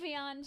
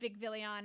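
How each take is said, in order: First: The name is said without an extra middle syllable. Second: The name is said with an extra middle syllable. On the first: The speaker calls it right. "There is no third eye in Vicvion" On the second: The speaker calls it wrong. "stick the extra I in there and make it Vicvillion"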